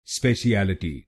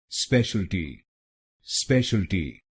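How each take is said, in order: First: स्पेशलिटी said slowly as spe-shi-a-li-ti, five syllables; wrong pronunciation. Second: स्पेशलिटी said as three syllables, spesh-al-ti; clipped स्पेशलिटी with the middle vowel swallowed; correct pronunciation. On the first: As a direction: stretch स्पेशलिटी out with an extra -shi-a- sound. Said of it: "इस शब्द को गलत बोलते हैं". (गलत उच्चारण, स्पेशलिटी को स्पे-शि-ए-लि-टी बोलें) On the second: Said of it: "इसकी सही प्रोनाउंसिएशन है". (सही उच्चारण, स्पेशलिटी को स्पेश-अल-टी बोलें) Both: Shown as a demonstration.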